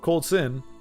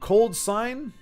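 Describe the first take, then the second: First: The second part is said like 'sin'. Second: The second part is said like 'sign'. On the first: "or or Cold Sin" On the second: "I think that's how you pronounce it"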